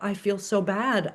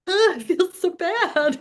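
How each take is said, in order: First: It is said with restrained, honest, not-crying feeling. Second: It is said with fake, put-on crying.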